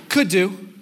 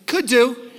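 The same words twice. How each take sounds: First: Said in the usual way. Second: Mock noncommittal. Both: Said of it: "The answer should always be yes".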